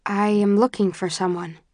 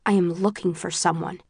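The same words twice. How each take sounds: First: Said in the usual way. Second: Restrained, terse insistence; understated impatience, tersely put. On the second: A narrator's reading. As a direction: repeat the request tersely, holding back. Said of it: "my voice is terse".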